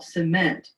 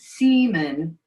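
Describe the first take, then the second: First: The stress is on the second syllable. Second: The stress is on the first syllable. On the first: The speaker calls it right. "cement on the second syllable" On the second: The speaker calls it wrong. "she was saying seaman"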